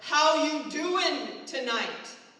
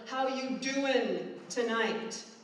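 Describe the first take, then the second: First: It is said loudly in a deep voice. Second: It is said louder, with growing intensity.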